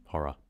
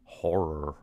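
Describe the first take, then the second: First: "Horror" with no R, Kiwi style. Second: "Horror" with heavy rolled American R's. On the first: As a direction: drop the R's in "Horror", Kiwi way. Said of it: "We just say horror". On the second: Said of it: "the R's are so crazy". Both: Shown as a demonstration.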